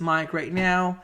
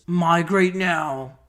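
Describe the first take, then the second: First: Said in the usual way. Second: Slow flat robot voice. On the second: Acted. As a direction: say it like a machine. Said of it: "I'm speaking like a robot".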